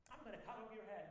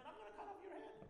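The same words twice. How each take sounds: First: Said in the usual way. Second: "head" pitched much higher than the line before; fierce challenge. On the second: Shown as a demonstration. Preacher threatens his resentment in a high fierce voice. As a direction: fling the threat up high at your problem. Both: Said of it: "imagine talking to your problems like this".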